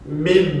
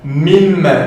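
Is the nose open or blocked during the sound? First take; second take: blocked; open. First: The sound is muffled with the nose pinched shut. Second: The sound resonates freely through the nose. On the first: "Je vais venir boucher mon nez" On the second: "comme vous voyez le son est normal"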